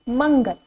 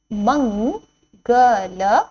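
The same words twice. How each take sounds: First: Said in the usual way. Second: मंगल drawn out slowly with rising end; slow teacher drill; slow sounding out. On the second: Shown as a demonstration. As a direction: stretch मंगल syllable by syllable. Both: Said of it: "word drill".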